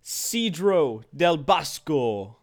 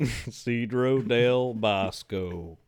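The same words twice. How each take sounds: First: Hammed-up fake Italian accent; badly faked Italian accent; horrible Italian accent. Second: Slow, stretched southern "Cedro del Bosco"; mock southern accent, long slow vowels. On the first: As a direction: say "Cedro del Bosco" like a cartoon Italian. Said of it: "horrible Italian accent". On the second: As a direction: say the Italian name in a southern accent. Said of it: "Why in a southern accent now?".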